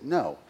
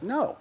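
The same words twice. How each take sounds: First: Said in the usual way. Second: The second "No." much higher and emphatic; higher insistent refusal. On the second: Retold or imitated. Pastor refusing the elders again, higher stubborn no. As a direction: pitch "No." up high in stubborn refusal. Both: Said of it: "And I said".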